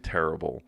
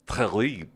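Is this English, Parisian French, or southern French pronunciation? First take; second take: English; southern. First: It is said with an English pronunciation. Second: It is said in a southern French accent.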